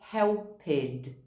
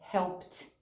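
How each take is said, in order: First: The ending is voiced as an extra syllable. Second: The ending adds no extra syllable. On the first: The speaker calls it wrong. "A gente lê esse ed no final" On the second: The speaker calls it right. "na verdade a pronúncia é"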